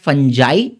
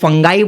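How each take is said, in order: First: The middle consonant is a j sound. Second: The middle consonant is a hard g sound. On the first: The speaker calls it right. "इसका correct pronunciation है फंजाई" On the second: The speaker calls it wrong. "कुछ लोग इसको फंगाई बोलते हैं"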